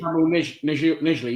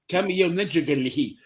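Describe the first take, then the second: First: The first name sounds like the plain word camel. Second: The first name sounds like Camille, with fancy vowels. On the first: This is how the player says his own name. The speaker calls it right. "he pronounces it Camel" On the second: The speaker was overcompensating on a foreign name. The speaker calls it wrong. "I was saying like Camille Nejil, like trying to be all"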